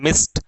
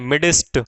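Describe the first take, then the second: First: The d sound is left silent. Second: The d sound is clearly pronounced. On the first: The speaker calls it right. "ये जो डी है ये एक तरीके से mute है" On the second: The speaker calls it wrong. "मिडिस्ट नहीं बोलना इसको"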